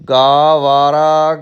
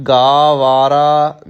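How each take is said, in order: Both takes have the same delivery.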